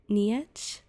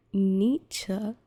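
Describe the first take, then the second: First: Nietzsche guessed as "nee-ETCH", questioning rise; unsure mispronunciation. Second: Nietzsche as "NEE-chuh", first syllable loud; first-syllable stress. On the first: Real, not acted. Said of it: "I can't say the rest of his name". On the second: Shown as a demonstration. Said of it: "With the emphasis on the first syllable".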